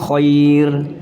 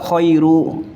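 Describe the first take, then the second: First: The word stops on the final r consonant. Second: The word ends with an added -u vowel. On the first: The speaker calls it right. "ini di wakaf bunyinya khair" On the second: The speaker calls it wrong. "bukan juga khairu"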